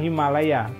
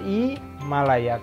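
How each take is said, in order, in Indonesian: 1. Kata ini diawali dengan bunyi H yang terdengar. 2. Kata ini langsung diawali dengan vokal I. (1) "Kalau di bahasa Indonesia kan Himalaya" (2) "di bahasa Prancis itu berjadi bunyinya langsung Himalaya, karena hanya H-nya itu tidak pernah bunyi"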